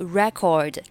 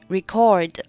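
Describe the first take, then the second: First: The stress is on the first syllable. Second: The stress is on the second syllable. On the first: It is used as a noun. "做名词是读作record，重音放在开头" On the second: It is used as a verb. "做动词是record，重音放在第二个音节record"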